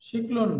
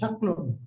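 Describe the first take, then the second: First: The first vowel is an 'i' sound. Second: The first vowel is an 'a' sound. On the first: The speaker calls it wrong. "শিকলন নাই" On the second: The speaker calls it right. "অভিধানে শব্দটা শাকলুন আছে"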